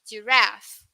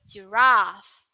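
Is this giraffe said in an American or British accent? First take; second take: American; British. First: American accent, with a shorter sound. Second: British accent, with a longer sound. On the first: "That's for U S" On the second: "For U K"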